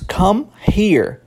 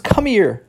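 First: The two words are said separately, with a pause. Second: The two words run together, the h dropped.

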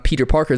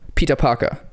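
First: It is said with an English pronunciation. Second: It is said with a German pronunciation.

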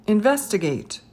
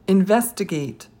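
No difference in how they are said.

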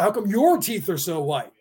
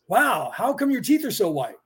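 First: It sounds jealous and resentful, not a real question. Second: It sounds like a genuinely curious question.

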